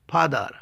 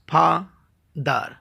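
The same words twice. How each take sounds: First: Said in the usual way. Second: "ফাদার" slowly split as ফা, দার; two separate beats in "ফাদার", pause between; syllable by syllable. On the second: Shown as a demonstration. Teacher showing a disyllable, saying "ফাদার" in two slow parts. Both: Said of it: "দুইবারে উচ্চারণ করতে হয়".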